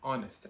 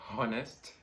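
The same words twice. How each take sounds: First: The word begins without any H sound. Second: The word begins with an audible H sound. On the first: The speaker calls it right. "This word has a silent letter H" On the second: The speaker calls it wrong. "make sure you're not saying honest. That would be totally wrong"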